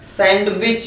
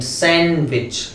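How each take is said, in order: First: The d sound is pronounced in the middle. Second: The d sound is left silent in the middle. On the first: The speaker calls it wrong. "काफी लोग उसको गलत बोलते हैं, सभी लोग इसका साउंड क्या करते हैं" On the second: The speaker calls it right. "डी silent होता है"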